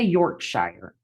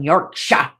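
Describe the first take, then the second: First: It is said with an American accent. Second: It is said with a British accent.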